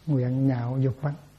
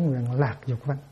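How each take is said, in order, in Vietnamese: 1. Âm tiết thứ hai được đọc là nhạo. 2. Âm tiết thứ hai được đọc là lạc. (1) "phải đọc là chữ nhạo" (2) "chứ không có nói nguyện lạc dục văn"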